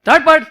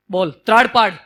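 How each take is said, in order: First: Louder, higher roaring command. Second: Said in the usual way. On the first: Acted. Lion roars the order at the cub, loud. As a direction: bellow it like a lion. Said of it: "જોરથી ત્રાડ પાડી".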